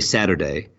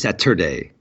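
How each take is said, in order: First: It is said with a soft American T. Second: It is said with a hard British T.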